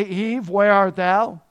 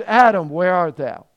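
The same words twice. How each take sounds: First: Said in the usual way. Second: Adam called out louder, falling; stress on Adam. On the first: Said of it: "He didn't say". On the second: Retold or imitated. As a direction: call out Adam with weight. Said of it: "He says".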